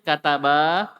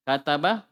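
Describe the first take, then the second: First: The final vowel is lengthened. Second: The final vowel is short. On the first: Two men wrote. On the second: One man wrote.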